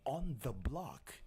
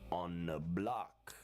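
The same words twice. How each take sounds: First: The th in 'the' is clearly pronounced. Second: The th in 'the' blends into an n. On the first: The speaker calls it wrong. "instead of saying" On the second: The speaker calls it right. "you barely hear the T H in the word the"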